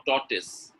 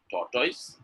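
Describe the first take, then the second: First: TORTOISE ending in a short "tis"; correct pronunciation. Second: TORTOISE ending in "toys", rising; wrong pronunciation. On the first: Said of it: "Tortoise is correct". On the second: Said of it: "is a wrong pronunciation". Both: Shown as a demonstration.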